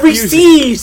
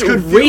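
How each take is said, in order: First: The last syllable has a long ee vowel. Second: The last syllable has a short vowel. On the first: The speaker calls it wrong. "The fourth E would make it Reese's. It's not Reese's" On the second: The speaker calls it right. "It's Reese's"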